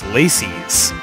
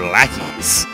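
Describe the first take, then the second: First: The first vowel is long, as in 'lace'. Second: The first vowel is short, as in 'lack'. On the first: The speaker calls it right. "I'm sure it's pronounced Lacy" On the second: The speaker calls it wrong. "Lackies sounds more interesting"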